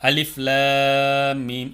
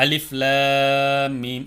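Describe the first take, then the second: First: The L is pronounced light and flat. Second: The L is pronounced light and flat.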